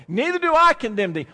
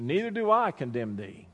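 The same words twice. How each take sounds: First: "Neither do I condemn thee" said higher and louder; louder preached quote. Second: Soft quote. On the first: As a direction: proclaim it to the congregation. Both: Shown as a demonstration.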